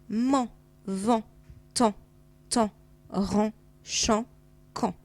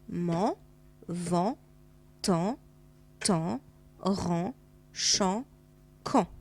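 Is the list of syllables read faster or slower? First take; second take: faster; slower. First: The syllables are read at a faster pace. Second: The syllables are read at a slower pace.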